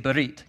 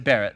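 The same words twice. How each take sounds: First: The r is rolled. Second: The r is plain, not rolled. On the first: The speaker calls it right. "say berit. Got to roll the R" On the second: The speaker calls it wrong. "Don't say berit"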